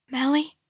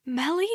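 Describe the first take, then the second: First: Whisper. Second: Rising, higher, searching call; hopeful repeat. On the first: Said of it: "I whisper". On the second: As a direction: ask again, disbelieving. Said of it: "I repeat". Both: A narrator's reading.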